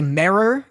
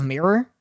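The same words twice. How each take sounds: First: "mirror" with an open E, like "merror"; regional pronunciation of mirror. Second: Said in the usual way. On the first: Shown as a demonstration. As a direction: say "mirror" with the vowel of "merry". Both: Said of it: "you say mirror instead of mirror".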